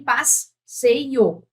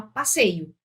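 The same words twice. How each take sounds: First: "passeio" split into pas, pause, seio; wrongly split syllables. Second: Said in the usual way. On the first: Shown as a demonstration. Teacher showing the wrong "passeio", cut in two. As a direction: break "passeio" between the two s's, drawn out. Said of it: "Você não tem passeio". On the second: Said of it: "você fala passeio".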